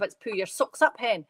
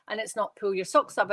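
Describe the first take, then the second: First: Light West Coast Scottish accent on "pull your socks up"; "pull your socks up, hen" in a lightly put-on Scottish accent, ending in a rise; broad Scottish accent. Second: Said in the usual way. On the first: Shown as a demonstration. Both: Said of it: "It's a really broad".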